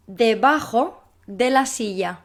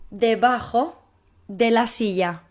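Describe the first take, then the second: No difference in how they are said.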